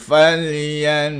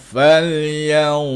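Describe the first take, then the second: First: The n is pronounced clearly and fully. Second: The n is hidden in a nasal ya-like sound. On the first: The speaker calls it wrong. "dia tak boleh bunyi falyan" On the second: The speaker calls it right. "disamarkan menjadi ya"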